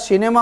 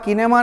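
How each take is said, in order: First: The word begins with an S-like sound. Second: The word begins with a K sound. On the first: The speaker calls it right. "श की तरह" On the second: The speaker calls it wrong. "किनेमा नहीं"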